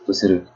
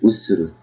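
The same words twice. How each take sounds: First: All syllables are even, with no stress. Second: One syllable is stressed more than the others. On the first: The speaker calls it right. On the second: The speaker calls it wrong.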